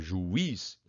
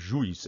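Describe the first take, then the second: First: The vowels split, with a stronger i. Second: The vowels merge into a single syllable. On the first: The speaker calls it right. "Então o i é mais forte" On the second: The speaker calls it wrong. "se é ditongo, você ia falar de uma vez só"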